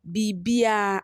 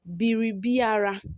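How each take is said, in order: First: The r sound is dropped entirely. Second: The r sound is pronounced in full.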